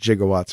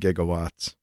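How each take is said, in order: First: The word begins with a soft J sound. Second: The word begins with a hard G sound. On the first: Someone else said it this way. The speaker calls it wrong. "he said gigawatts" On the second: This is how it should be said. The speaker calls it right. "it should have been gigawatts"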